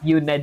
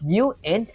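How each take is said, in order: First: It is said like the ordinary word unit. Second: It is said as two parts, you-int. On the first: The speaker calls it wrong. "You're still pronouncing it wrong" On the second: The speaker calls it right. "It's uint and not unit"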